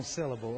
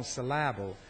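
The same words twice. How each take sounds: First: Said in the usual way. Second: "syllable" with the stress moved to the middle, sil-LAB-ul; wrong-syllable stress. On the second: Shown as a demonstration. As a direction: lean playfully on the second syllable of "syllable". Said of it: "put the emphasis on the wrong syllable".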